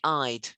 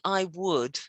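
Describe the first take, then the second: First: It is contracted into one syllable. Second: It is said in full as two words. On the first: "you can abbreviate them" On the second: "instead of saying I would"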